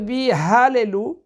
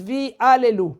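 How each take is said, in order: First: The second word begins with an h sound. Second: The second word begins with a vowel, no h. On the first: It means to praise. The speaker calls it right. "Au lieu de dire" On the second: It means to make into false gods. The speaker calls it wrong. "ils disent"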